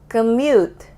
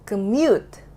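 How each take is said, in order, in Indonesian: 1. Suku kata kedua tidak ditekankan lebih kuat. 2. Suku kata kedua ditekankan lebih kuat. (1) "gue tadi nggak membuat syllable yang ini, yang mute-nya itu stronger than the other syllable" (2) "gitu baru benar"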